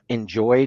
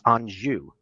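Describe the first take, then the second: First: The name is said like the word 'enjoy'. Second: The name is said with an 'on' first syllable. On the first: The speaker calls it wrong. "you called it enjoy chocolate" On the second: The speaker calls it right. "It's Anjou is just the pronunciation"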